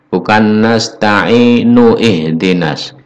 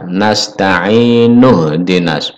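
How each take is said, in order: First: An 'i' sound is kept before 'hdinas'. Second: The 'nu' runs directly into 'dinas'. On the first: The speaker calls it wrong. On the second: The speaker calls it right. "bunyi ih pada hamzah ini harus dihilangkan"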